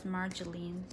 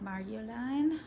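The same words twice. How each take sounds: First: The name is said the American way. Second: The name is said in a non-American way. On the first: This is how Americans would read the name. "in America, we would read it as Marjolein" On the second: This is how the name's owner says it. "from what I understood, it's more like Marjolein"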